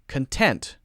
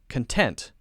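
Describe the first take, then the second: First: The stress is on the second syllable. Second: The same.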